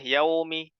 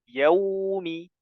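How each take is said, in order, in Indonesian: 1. Vokal pertama diucapkan dengan bibir tidak membulat. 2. Vokal pertama diucapkan dengan bibir membulat. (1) "Tidak boleh yaumi" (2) "monyongkan saja bibirnya"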